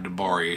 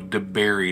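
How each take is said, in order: First: The name ends with an open 'bar-ee' sound. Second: The name ends sounding like the word 'berry'. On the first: The speaker calls it wrong. "I was pronouncing DeBerry wrong" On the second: The speaker calls it right. "DeBerry, not DeBari"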